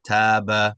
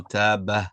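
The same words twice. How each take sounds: First: "taba" clean with no trailing sigh; "taba" stopping crisply; correct taba. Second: "taba" with a little sigh at the end; "taba" ending on a breathy ha; wrong taba. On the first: Teacher contrasting the right way, clean "taba". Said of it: "Just taba". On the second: Teacher showing the wrong way, "taba" with sigh. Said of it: "as opposed to taba". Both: Shown as a demonstration.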